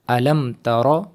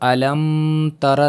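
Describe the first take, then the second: First: The m is short with no nasal hum. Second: The m is held with a long nasal hum. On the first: The speaker calls it right. "बल्कि पढ़ेंगे अलम तारा" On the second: The speaker calls it wrong. "नहीं पढ़ेंगे इसको"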